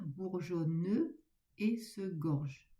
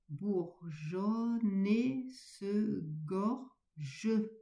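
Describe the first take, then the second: First: Bourgeonne and et are kept separate. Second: Bourgeonne runs straight into et. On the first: The speaker calls it wrong. "Ne pas dire" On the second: The speaker calls it right. "on fait la liaison"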